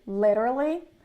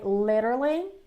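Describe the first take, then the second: First: The middle consonant is a quick R-like flap. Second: The same.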